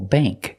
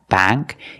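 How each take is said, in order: First: The vowel sounds like the one in plate. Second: The vowel sounds like the one in cat. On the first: The speaker calls it right. "words with A N K and A N G use the long A sound, like plate and date" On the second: The speaker calls it wrong.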